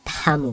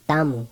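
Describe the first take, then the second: First: Tamu with a puff of air after T; aspirated T. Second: Tamu with no puff after T; unaspirated T. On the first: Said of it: "with that aspiration". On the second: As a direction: say tamu with a tight, airless T. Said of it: "we're not saying tamu". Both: Shown as a demonstration.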